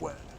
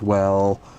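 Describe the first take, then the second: First: The word is said in a deep voice. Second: The word is drawn out long.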